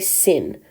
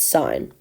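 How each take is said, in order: First: The vowel is short, rhyming with sin. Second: The vowel is long, rhyming with sign. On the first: The speaker calls it wrong. "you don't say sin" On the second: The speaker calls it right. "it's sine"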